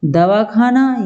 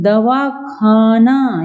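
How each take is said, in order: First: Said in the usual way. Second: दवाखाना split into दवा and खाना, slowly; separated words. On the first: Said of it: "जोड़ के ही बोल दिया". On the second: Shown as a demonstration. Teacher meaning take your medicine, दवाखाना slowly split in two. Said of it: "बीच में gap दे दिया".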